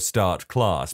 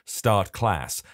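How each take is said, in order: First: The vowels in the two words sound alike. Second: The vowels in the two words sound different. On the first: "they sound more similar" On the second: "how hard it is for me to say a word like start and then follow it up with class"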